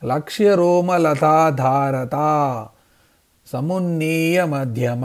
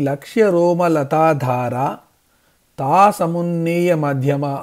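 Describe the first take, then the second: First: A short pause comes just after the syllable 'taa'. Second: The name is broken just before the syllable 'taa'. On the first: The speaker calls it right. "తొమ్మిది అక్షరాల తర్వాత కొద్దిగా విరామంతో" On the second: The speaker calls it wrong. "అనే విధంగా విడదీసి చదవకూడదు"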